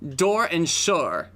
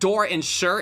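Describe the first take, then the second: First: 'Sure' is said so it rhymes with 'door'. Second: 'Sure' is said so it does not rhyme with 'door'. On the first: The speaker calls it right. "it's door and sure, right?" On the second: The speaker calls it wrong. "it's not like door and sure"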